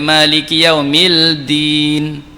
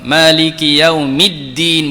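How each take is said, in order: First: A separate L sound is heard before din. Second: The L blends in, giving a doubled D sound. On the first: The speaker calls it wrong. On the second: The speaker calls it right.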